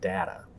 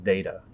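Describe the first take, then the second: First: The first vowel is a short A sound. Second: The first vowel is a long A sound. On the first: This is the computing usage. The speaker calls it wrong. "It is not data" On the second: This is the scientific usage. The speaker calls it right. "in the sciences, this is pronounced data"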